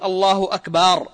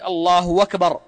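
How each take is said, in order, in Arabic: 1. الحركة بعد الباء في أكبر تُمدّ. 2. يحل صوت الواو محل الهمزة قبل أكبر. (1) "بمد الباء" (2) "بالواو بدل الهمزة"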